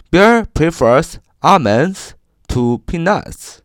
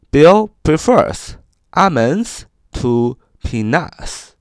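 First: Slow example sentence. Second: Careful slow read of the sentence; slow example sentence. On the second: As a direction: read it slowly, word by word. (慢速朗读例句) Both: Shown as a demonstration. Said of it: "我们造个句子说".

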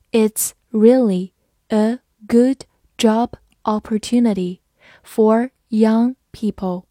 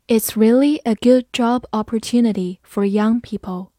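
First: Slow, word by word; slow read-along. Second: Said in the usual way. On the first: Shown as a demonstration. Teacher leading learners through the example, slow and measured. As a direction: separate each word for learners to follow. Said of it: "好，慢慢来读". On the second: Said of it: "慢慢来读".

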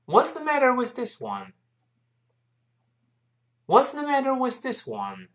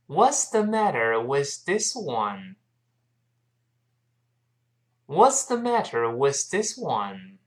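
First: Quicker, higher-pitched model reading; brisk high start gliding down; a bit faster. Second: Slow, drawn-out model for learners to follow; unhurried teacher's demonstration; slow reading. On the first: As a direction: speed the question up, falling at the end. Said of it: "好，我们快一点儿". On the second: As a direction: read it out slowly, word by word. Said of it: "我们慢慢读一下这句话". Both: Shown as a demonstration.

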